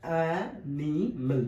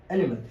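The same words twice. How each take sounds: First: অ্যানিমেল slow, split অ্যা, নি, মেল; drawn-out, spaced অ্যানিমেল; in three parts. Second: Said in the usual way. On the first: Shown as a demonstration. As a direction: give অ্যানিমেল three separate beats. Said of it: "তিন ভাগে". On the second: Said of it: "কয় ভাগে উচ্চারণ করছি".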